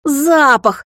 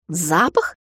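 First: High, loud exasperated bark; barked roar. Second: Cool, puzzled query; raised-brow question. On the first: Vampire snaps back at the puzzled girl, high loud bark. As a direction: bellow the word back in alarm. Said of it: "рявкнул он". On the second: Heroine questions the frantic vampire, cool raised-brow query. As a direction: ask evenly with a mildly sceptical lift. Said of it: "вскинула я брови". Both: A narrator's reading.

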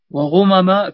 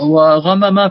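First: "وغمم" as wa-ghumama; rounded u-vowel on the ghayn of "وغمم"; ghayn with damma. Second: "وغمم" as wa-ghamama; ghayn with fatha. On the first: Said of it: "بضمها". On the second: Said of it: "بفتح الغين". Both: Shown as a demonstration.

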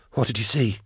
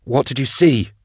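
First: Soft, gently urgent question; hushed question. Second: Higher-pitched, urgent question; insistent repeated question. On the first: Drusha questioning the dying hunter, hushed. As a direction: ask the dying man softly. First asking of dying man. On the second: Drusha pressing the dying hunter, insistent. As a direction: press for an answer, pitch raised. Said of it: "Drusha repeated". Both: A narrator's reading.

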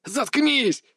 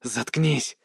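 First: High, torn scream. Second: Choked cry through blood; through blood in throat. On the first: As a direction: scream it in pain. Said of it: "Крик вырвался из горла". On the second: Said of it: "Слова вырвались через кровь в горле". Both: Acted.

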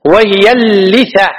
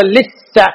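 First: "اللثة" as al-litha, long l, single th; doubled lam, light tha. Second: "اللثة" as al-liththa, doubled th; mistaken doubled tha. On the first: Teacher modelling the word, "اللثة" with light th. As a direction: slowly hold the l of "اللثة", keep th short. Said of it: "اللام مشدد لكن الثاء". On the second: Teacher warning students, "اللثة" with heavy th. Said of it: "هذا خطأ". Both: Shown as a demonstration.

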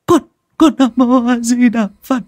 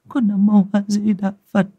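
First: High, stammering, louder cry of Nam Mô A Di Đà Phật; desperate louder prayer. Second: High, trembling Buddhist chant; frightened prayer. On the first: Wife crying out her prayer in terror, stammering louder. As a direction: cry the prayer out, stuttering on con. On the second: Wife praying to the heavens after seeing the eye, frightened. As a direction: pray it shakily under her breath. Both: Acted. Terrified woman praying, bowing.

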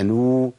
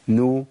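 First: نو drawn out into a long noo; lengthened vowel. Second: نو said short, as a single-beat نُ; one beat only. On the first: Teacher showing the vowel overdone, long held syllable. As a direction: hold نو well past one beat. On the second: Teacher demonstrating the limit, short one-beat syllable. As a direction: keep نو to one brief count. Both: Shown as a demonstration. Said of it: "لو زودتها عن كده".

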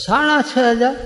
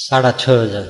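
First: High rising disbelief at સાડા છ હજાર; shocked echo. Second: Said in the usual way. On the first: Retold or imitated. Husband echoing his wife's dress price in high disbelief. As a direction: repeat the price as if you can't believe it.

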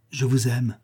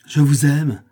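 First: Understated disgust on the quoted words; disdainful quoting. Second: Raised, exasperated outburst; desperate exclamation. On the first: Young woman citing her suitor's tiresome declaration, with disgust. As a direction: quote his declaration back with restrained distaste. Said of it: "Un dégoût, une haine presque". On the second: Young woman throwing her suitor's declaration back, crying out desperately. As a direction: cry it out, higher and louder. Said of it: "s'écria-t-elle, en levant un regard désespéré". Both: A narrator's reading.

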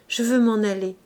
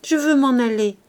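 First: Urgent beg on "je veux m'en aller", moderately raised; pleading. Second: "Je veux m'en aller" cried louder and higher, stress on "Je"; crying out. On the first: Gervaise begs Bazouge, restrained plea. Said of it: "se mit à le supplier avec passion". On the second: Gervaise cries to Bazouge, loud insistent demand. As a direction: shout "Je" hard, fall at the end. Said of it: "criait toujours Gervaise". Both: Acted.

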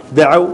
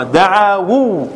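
First: "دعوا" said short, ending in the diphthong aw; contracted form daʕaw. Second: "دعاوا" drawn out slowly with long vowels; original form daʕāwū. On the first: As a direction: say "دعوا" as two syllables, da-ʕaw, with no long vowels. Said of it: "فحذفت الواو وصارت". (نطق "دعوا" مختصرة بواو ساكنة بعد عين مفتوحة) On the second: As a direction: stretch "دعاوا" into da-ʕā-wū, sounding the final wū. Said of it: "هذا أصله". (نطق "دعاوا" ببطء على أصلها، بمدّ الألف والواو) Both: Shown as a demonstration.

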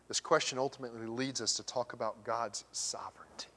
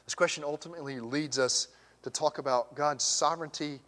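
First: A dramatic whisper before the repeat. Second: Said in the usual way. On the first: Acted. Preacher hushing the congregation for emphasis, whispered. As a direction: whisper it, softer, for weight.

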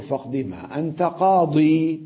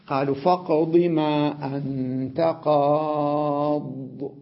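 First: Slow verse ending قاضي in a long "ii"; drawn-out qaadii with the yaa sounded; stop on yaa. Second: Slow chanted verse, long held vowels; measured tajweed chant stopping on silent daad; sung, Quranic recitation. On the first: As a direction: say قاضي as qaadii, final vowel held. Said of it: "بعضهم يقف عليها بالياء". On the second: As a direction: chant it, stretching قاض to "qaaad" with a bare final d. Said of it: "مثل ما قال سحرة فرعون". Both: Shown as a demonstration.

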